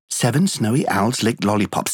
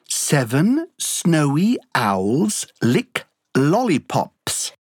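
First: It is said very fast, at top speed. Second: It is said at a slow, careful pace.

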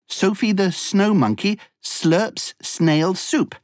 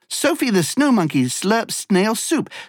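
First: The sentence is spoken at a fast pace. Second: The sentence is spoken at a very fast pace. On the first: "plus vite!" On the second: "Encore plus vite!"

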